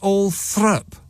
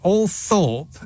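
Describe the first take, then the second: First: The second syllable sounds like 'thrup'. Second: The second syllable sounds like 'thorp'. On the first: It is how insiders actually say it. "But they pronounce it all Thrup" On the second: It follows the written spelling. "it's it's all Thorpe, isn't it? A L T H O R P"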